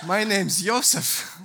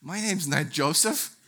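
First: "Yosef" starting with a Y sound; Yosef pronunciation. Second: "Joseph" with an English J sound at the start. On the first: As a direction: say "Yosef" with "yo" in place of "jo", pitched up. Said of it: "it says Yosef". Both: Retold or imitated.

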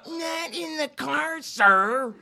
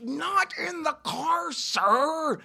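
First: High, mocking seven-year-old girl voice; childish mock repeat; mocking little girl. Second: Plain. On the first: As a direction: parrot it back like a bratty little girl. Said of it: "He's mocking me like a seven-year-old girl". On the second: Retold or imitated. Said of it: "and I'm saying".

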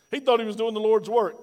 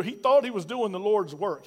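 First: A bit louder, stress on thought; emphatic repeat. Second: Said in the usual way. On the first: Acted. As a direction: lean into the word thought, preaching. Preacher repeats line for emphasis.

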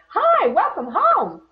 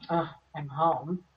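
First: Much higher, louder and slow, sunny greeting; cheerful welcoming house. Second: Slow, deflated sigh of a greeting; weary arrival. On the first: A home greeting its owner at night, bright and welcoming. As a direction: greet them like a delighted house. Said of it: "your home should rise up and say". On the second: Someone coming home to a house that drains them, flat and weary. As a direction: drag the words like you dread coming in. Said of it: "you walk up to it and you go". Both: Pretend.

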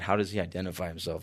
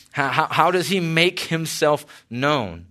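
First: Fast, low, quick mumble of the wrong line; tossed off as a quick mock slip; rushed slip. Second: Said in the usual way. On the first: Shown as a demonstration. Preacher mocks his own near slip, fast and low. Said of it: "I almost said". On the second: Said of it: "That would have been weird".

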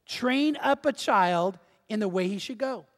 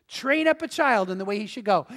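First: Slow, measured reading with a pause midway; slow scripture reading. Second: Said in the usual way. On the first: Shown as a demonstration. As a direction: read the verse out slowly, phrase by phrase. Reads the verse slowly first.

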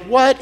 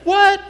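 First: What with a questioning rise; puzzled what. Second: High, sharp what; pitched up, quick; email what. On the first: To the audience, an email with question mark: rising what. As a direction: let it lift at the end. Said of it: "It'd be like". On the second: To the audience, reading an email: high sharp what. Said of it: "if I sent you an email and I said". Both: Shown as a demonstration.

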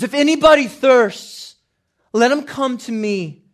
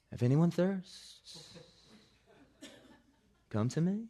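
First: Full-force shout, very high and loud; Jesus. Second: Slow, higher-pitched mock-mellow delivery; nonchalant movie Jesus. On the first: Acted. Crying out at the climax of the feast, shouting. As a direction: cry it out over a hushed crowd. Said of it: "Cried out. If you don't have a shouting Jesus". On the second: Film Jesus rolls around a pillar, mock nonchalant. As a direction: drift through it lazily, lilting upward. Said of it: "this philosophical idea that Jesus is just".

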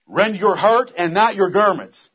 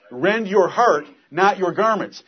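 First: "not" slow and punched in "Rend your heart and not your garments"; stress on NOT. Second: "Rend your heart" then "not" hit with falling tune; stress on NOT. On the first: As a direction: lean hard on "not". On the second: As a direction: split it, punch "not". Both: Acted. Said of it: "Where the emphasis is to be?".

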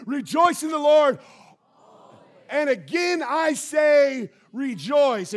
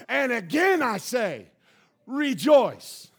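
First: Loud, high chant for the church to repeat; call and response shout. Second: Preached. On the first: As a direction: lead the room in saying it, full voice. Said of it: "Can you say it with me?". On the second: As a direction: hammer it home one more time. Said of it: "let me preach it one more time". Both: Shown as a demonstration.

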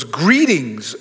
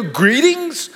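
First: Low, formal "Greetings." said solemnly; angel's greeting. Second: "Greetings?" pitched high, disbelieving; incredulous question. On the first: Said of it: "the angel goes". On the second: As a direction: throw "Greetings?" back in disbelief. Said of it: "and I wanna go". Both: Retold or imitated.

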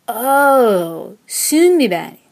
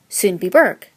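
First: Loud, sing-song Swedish "Sundbyberg" of recognition; drawn-out oh, then Swedish-accented name; Swedish locals. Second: Put-on Sundbyberg in a broad American accent; hopelessly American accent. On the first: Locals finally understanding the suburb's name, Swedish-accented realization. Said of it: "until they said". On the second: Newcomer naming her Swedish suburb, hopelessly American accent. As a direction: say "Sundbyberg" with hard American r's. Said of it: "in my hopelessly American accent". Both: A narrator's reading.

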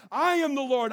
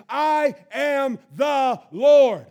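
First: Loud steady declaration of I am the Lord; proclaiming. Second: Slow, very loud shout of I am the Lord; climactic shout. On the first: God naming himself to Moses, firm declaration. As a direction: declare it firmly. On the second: God's final declaration to Moses, slow roaring shout. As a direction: stretch and roar each word. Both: Acted.

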